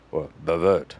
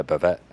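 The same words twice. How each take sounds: First: Bavette said the French way, light French accent on the last syllable; a playful French accent on bavette, stressing vette. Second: Said in the usual way. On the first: Shown as a demonstration. Butcher showing off the fancy name for the cut, light French accent. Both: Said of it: "That's my French accent".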